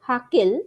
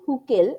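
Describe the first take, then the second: First: The first vowel sounds like 'ah'. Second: The first vowel sounds like 'oo'. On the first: This is how people abroad say it. "বাইরে গিয়ে দেখেছি ওরা হাকেল উচ্চারণ করে" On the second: This is how people here say it. "আমরা তো হুকেল উচ্চারণ করি"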